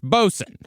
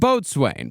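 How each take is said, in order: First: The word is said in a short, reduced form. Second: The word is said in a full, spelled-out form. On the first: This is the usual way people say it. "the word boatswain is generally pronounced bosun" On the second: This is a less common but accepted way to say it. "It can also be pronounced boatswain"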